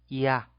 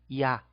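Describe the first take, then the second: No difference in how they are said.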